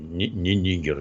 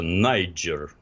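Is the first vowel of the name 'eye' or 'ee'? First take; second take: ee; eye. First: The first vowel sounds like 'ee', with a 'g'. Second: The first vowel sounds like 'eye', with a 'j'. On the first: This is the Russian name of the country. The speaker calls it wrong. "не Нигер" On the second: This is the English name of the country. The speaker calls it right. "он по-английски называется Найджер"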